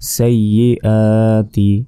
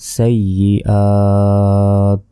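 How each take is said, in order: First: The word ends with a short vowel sound. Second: The word ends on a bare consonant sound. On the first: The reading continues without a stop. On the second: The reader stops on this word.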